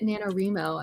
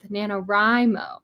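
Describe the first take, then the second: First: The second syllable pair sounds like 'ree-mo'. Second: The second syllable pair sounds like 'rye-mo'. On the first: The speaker calls it wrong. "I always heard people pronounce it NaNoWriMo, and I was like, what are you reaming?" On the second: The speaker calls it right. "it's a writing month"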